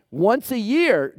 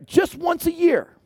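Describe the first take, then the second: First: Said in the usual way. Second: "just once a year" lifted much higher, "just" pushed hard; stress on just. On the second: Shown as a demonstration. Preacher repeating once a year with higher pitch on "just". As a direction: push "just" up high to stress it.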